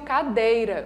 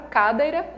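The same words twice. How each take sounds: First: The stress is on the middle syllable. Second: The stress is on the first syllable. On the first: The speaker calls it right. "o acento tônico está na penúltima sílaba" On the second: The speaker calls it wrong. "Não. Então não é essa daqui"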